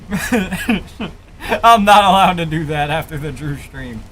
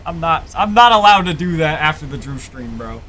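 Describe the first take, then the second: First: Slow, laughing through the words; giggling while repeating it. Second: Said in the usual way. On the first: Real, not acted. Same line said twice.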